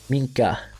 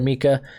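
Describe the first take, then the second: First: The name is said with an n sound. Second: The name is said without an n sound. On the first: The speaker calls it right. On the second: The speaker calls it wrong.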